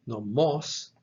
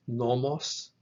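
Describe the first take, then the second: First: Nomos with the accent on final MOS; no-MOS, leaning on the end of Nomos; stress on last syllable. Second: Nomos with the accent on NO; NO-mos, leaning on the start of Nomos; stress on first syllable. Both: Shown as a demonstration. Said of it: "the only difference is in the accent".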